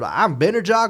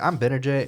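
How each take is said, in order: First: The name ends with an 'ah' sound. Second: The name ends with an 'ay' sound. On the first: "the name of the house to J A H" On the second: "his name is spelled B N A J A Y"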